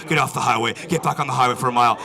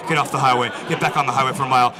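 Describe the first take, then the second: No difference in how they are said.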